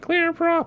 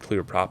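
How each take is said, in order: First: It is said in an obnoxious put-on voice. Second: It is said in an ordinary speaking voice. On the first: The call stands out above the noise. "something obnoxious like clear prop" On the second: The call gets lost in the noise. "if you're like clear prop, people won't hear you"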